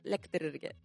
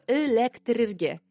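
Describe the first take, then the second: First: The word starts directly with the L sound. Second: The word starts with a vowel before the L. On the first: This is how people actually say it. The speaker calls it right. "Все скажут лектерерге" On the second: This is the written form. The speaker calls it wrong. "Пишется электрерге, но никто не скажет электрерге"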